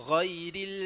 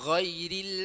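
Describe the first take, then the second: Both takes have the same delivery.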